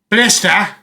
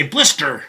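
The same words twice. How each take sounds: First: Blister said British, no r at the end, blis-tuh. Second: Blister said American, with a clear r at the end. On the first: Host contrasting her UK and American accents, British blister. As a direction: say blister the UK way, dropping the final r. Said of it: "instead of saying". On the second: Host contrasting her UK and American accents, American blister. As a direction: finish blister with a full rolled-in American r. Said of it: "she say blister". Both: Shown as a demonstration.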